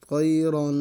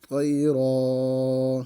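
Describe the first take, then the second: First: قیرن with a heavy ق and a nasal hum on the final ن; louder قیرن, nasalised at the end; tanween with ghunna. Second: قیرا very slowly drawn, the ن dropped, ending on a long ا; slow, stretched قیرا with no nasal; pausal stop reading. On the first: Teacher reads قیرن with ghunna, then its stopping form. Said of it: "اس میں غنہ کرنا ہے". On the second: Teacher shows the stopping form after قیرن. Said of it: "آگے وقف". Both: Shown as a demonstration.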